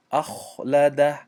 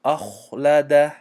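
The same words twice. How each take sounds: First: اخلده with a thin light kha; wrong light kha. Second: اخلده slow, with a heavy full-mouth kha; اخلده with a thick rounded kha. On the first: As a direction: say اخلده lightly, mouth not full. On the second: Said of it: "دهان پر شد". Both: Shown as a demonstration.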